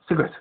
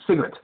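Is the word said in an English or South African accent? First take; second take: South African; South African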